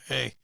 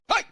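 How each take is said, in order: First: It is said quietly. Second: It is said very loudly.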